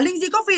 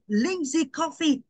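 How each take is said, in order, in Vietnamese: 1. Tên này đọc nhanh, không kéo dài. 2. Tên này đọc rõ ràng, các âm tiết được kéo dài. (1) "mình sẽ không thể đọc là Lingzi Coffee" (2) "Đọc rõ, đọc ngân dài"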